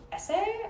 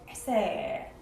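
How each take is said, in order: First: "essay" pitched high, rising like a question; questioning rise. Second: "essay" pitched low, sliding downward; falling tune. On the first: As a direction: lift "essay" up sharply at the end. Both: Shown as a demonstration. Contrasting takes of the word essay.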